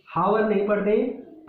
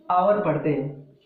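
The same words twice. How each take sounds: First: हावर with a clear h at the start; wrong h in hour. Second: आवर with no h sound at the start; silent h in hour. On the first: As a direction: show the wrong हावर, h sounded. (हावर, ह के साथ गलत उच्चारण) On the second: (आवर बिना ह के बोलें) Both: Shown as a demonstration.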